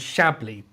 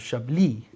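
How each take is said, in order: First: The stress is on the first syllable. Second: The stress is on the last syllable. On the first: The speaker calls it wrong. "not not on Chablis" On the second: The speaker calls it right. "the emphasis on the last part of Chablis"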